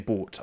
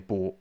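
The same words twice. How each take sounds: First: The T at the end is clearly pronounced. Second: The T at the end is barely heard. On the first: "But I don't say bought" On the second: "I say bought. But there's still a T there in my head"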